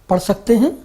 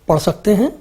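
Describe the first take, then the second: Both takes have the same delivery.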